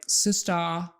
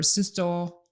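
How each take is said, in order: First: The final vowel sounds like a distorted ah. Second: The final vowel sounds like a distorted oh. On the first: "a distorted ah" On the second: "oh sound"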